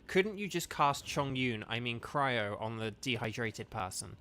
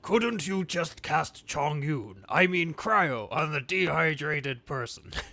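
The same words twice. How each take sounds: First: It is read in the speaker's ordinary voice. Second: It is read in a put-on alien character voice. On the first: "so Kevin's comment was" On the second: "in the voice of Lure from Omicron Persei eight in Futurama"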